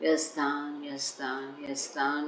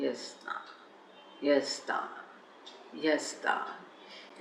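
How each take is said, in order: First: The word is repeated quickly in rapid succession. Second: The word is repeated slowly and deliberately. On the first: The speaker calls it wrong. "ऐसा जल्दी जल्दी नहीं" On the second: The speaker calls it right. "ऐसा"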